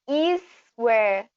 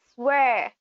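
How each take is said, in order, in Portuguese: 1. Acrescenta-se uma vogal antes do s. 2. A palavra começa direto com o s. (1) "nós temos aí uma mania, né, de colocar I antes do S na pronúncia" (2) "a gente não acrescenta o I na frente do S"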